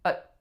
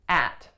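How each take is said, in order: First: The vowel is reduced to a schwa. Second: The vowel is a full, tense vowel. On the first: "At becomes schwa" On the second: "On its own, it is a nice tense a vowel"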